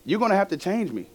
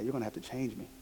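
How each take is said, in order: First: It is said in a fierce, forceful tone. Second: It is said in a humble, gentle tone. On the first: "I probably didn't say it like that fierce" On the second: "Very humbly"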